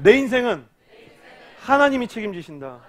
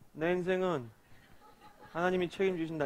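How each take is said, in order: First: It sounds believing and confident. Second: It sounds flat and unconvinced.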